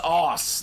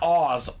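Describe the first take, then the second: First: The word ends with a soft s sound. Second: The word ends with a buzzing z sound. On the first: The speaker calls it right. "I think it's Aus" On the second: The speaker calls it wrong. "not Oz"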